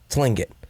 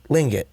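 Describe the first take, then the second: First: The word begins with a sounded T. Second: The word begins without a T sound.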